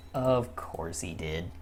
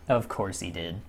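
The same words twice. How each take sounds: First: Lower, softer, slow and dejected; quietly crushed, slow; slow defeated mutter. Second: Said in the usual way. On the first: Real, not acted. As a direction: let it sink, slowly. Repeated, deflated.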